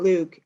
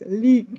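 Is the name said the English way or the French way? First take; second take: English; French. First: The name is said with an English vowel. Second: The name is said with a French vowel. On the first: The speaker calls it wrong. "it's not Luke" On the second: The speaker calls it right. "It's the very French way"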